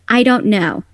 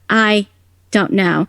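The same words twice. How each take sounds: First: The phrase is said smoothly without breaks. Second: The phrase has small breaks inside it. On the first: This is how it is naturally said. The speaker calls it right. "if I'm saying" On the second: This matches the character's mouth movements. The speaker calls it wrong. "but the flaps are"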